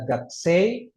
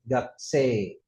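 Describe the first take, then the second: First: Gakse ending in a glide, "gak-sey"; wrong y ending. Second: Gakse with a pure long e, "gak-see". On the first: Teacher showing what to avoid, y glide ending. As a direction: let the e of gakse slide up into a y. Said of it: "ada Y-nya salah". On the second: Teacher giving the correct reading, long e. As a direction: hold the e in gakse with no glide. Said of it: "dibacanya E panjang". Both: Shown as a demonstration.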